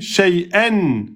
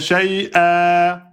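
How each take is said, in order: First: The word ends with an n sound. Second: The word ends on a lengthened vowel. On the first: The reading continues without stopping. "je garde le tenwin. Je dis shay'an" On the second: The reader stops on this word. "Je m'arrêterai en deux temps"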